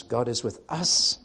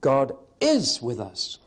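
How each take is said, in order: First: Us lifted with a rise; God is with US, rising on us; stress on US. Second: Slow, leaning on is; God IS with us, slow and firm; stress on IS. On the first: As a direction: put the emphasis on us. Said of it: "So the emphasis is on us". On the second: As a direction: press the word is. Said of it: "Meaning number two". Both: Shown as a demonstration.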